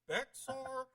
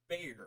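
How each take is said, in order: First: The name is said with an x sound. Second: The name is said without an x sound. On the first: "with the X" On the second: "with the silent X"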